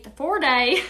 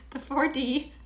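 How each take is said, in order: First: "four day" said the Southern way, D stretched into "day"; accidental Southern accent on "four day". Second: Said in the usual way. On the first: Real, not acted. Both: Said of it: "I don't know where the Southern accent comes from".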